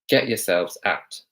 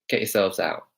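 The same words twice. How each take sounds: First: The final T of out is clearly pronounced. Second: The final T of out is dropped. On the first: "Practice saying that with a T" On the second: "the other version"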